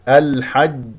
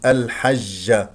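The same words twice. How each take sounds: First: The j sound is hard, with no escaping air. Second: The j sound is spread, with air escaping. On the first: The speaker calls it right. "الجيم شديدة مجهورة لا يخرج معها هواء... هكذا" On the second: The speaker calls it wrong. "هذه جيم غير فصيحة فيها تفشي، هذا خطأ، يخرج هواء"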